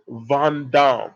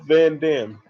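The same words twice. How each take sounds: First: The name is said with a French accent. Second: The name is said with a plain American accent. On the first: The speaker calls it right. "I got to put the, the French accent on there" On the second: The speaker calls it wrong. "let me pronounce that better"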